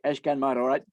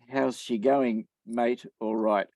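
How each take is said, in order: First: It is said fast and run together. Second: It is said slowly and clearly.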